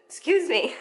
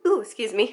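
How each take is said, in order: First: Laughing through a hiccup; giggling apology. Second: Hiccuping mid-sentence; interrupted by a hiccup. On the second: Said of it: "I also have the hiccups". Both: Real, not acted.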